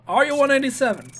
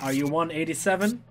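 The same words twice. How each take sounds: First: Higher, faster incredulous repeat. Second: Said in the usual way. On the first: Acted.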